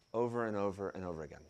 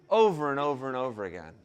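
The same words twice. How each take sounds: First: Over and over said soft and fast; a weary quieter echo; hushed repeat. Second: Said in the usual way. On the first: Real, not acted. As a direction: let the repeat fall away. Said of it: "repeated quieter".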